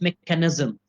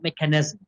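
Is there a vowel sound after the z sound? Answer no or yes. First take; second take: yes; no. First: A short vowel follows the z sound. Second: No vowel follows the z sound. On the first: The speaker calls it right. "So it's mechanism, there's a little uh after the s, after the z sound" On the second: The speaker calls it wrong. "not mechanism"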